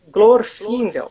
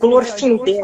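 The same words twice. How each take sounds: First: The stress is on the first syllable. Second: The stress is on the last syllable. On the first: The speaker calls it right. "é" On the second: The speaker calls it wrong. "Não é"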